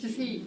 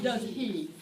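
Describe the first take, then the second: First: "does he?" blended with the H dropped. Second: "does he" with a clear, careful H. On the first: Teacher contrasting the reduced H with a careful one. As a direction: run "does he?" together, no H at all. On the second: Teacher showing the wrong, overcareful H. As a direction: slowly sound out the H in "he". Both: Shown as a demonstration. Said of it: "Not does he".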